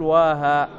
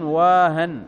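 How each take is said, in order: First: واها with no nunation on the end; without tanween. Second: واهن with a nunated n on the end; with tanween. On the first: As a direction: say واها ending in a long open aa, no n. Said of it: "لا يجوز أن تقول واها". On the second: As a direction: say واهن ending in a clear -an. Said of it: "يعني ملازم للتنوين". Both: Shown as a demonstration.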